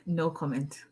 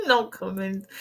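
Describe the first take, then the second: First: Soft, flat "No comment." said under the breath; deadpan aside. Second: Said in the usual way. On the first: Real, not acted. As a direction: drop it quietly and dryly.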